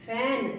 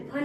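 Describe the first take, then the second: First: Said in the usual way. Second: फन with a short 'uh' vowel; wrong reading. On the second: Shown as a demonstration. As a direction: misread fan as फन, like "fun". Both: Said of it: "फन नहीं बोलेंगे इसको".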